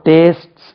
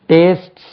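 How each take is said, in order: No difference in how they are said.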